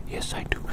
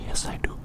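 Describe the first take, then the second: No difference in how they are said.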